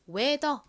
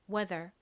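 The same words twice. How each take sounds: First: The word ends without an r sound. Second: The word ends with an r sound. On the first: "한국식으로는 보통 이 r의 리을 받침을 빼고 weather 이렇게 표기하는" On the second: "따라해보세요"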